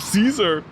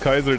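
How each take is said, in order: First: The name begins with a soft S sound. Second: The name begins with a hard K sound. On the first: The speaker calls it wrong. "Which British centurion by mistake one day uncovered a rock and was like" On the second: The speaker calls it right. "It's pronounced Kaiser, the Saint Caesar is supposed to be pronounced as K"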